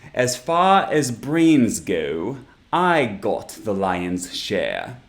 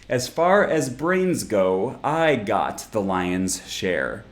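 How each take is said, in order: First: It is spoken in a British accent. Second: It is spoken in an American accent. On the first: "a character with a British accent" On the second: "a character with an American accent"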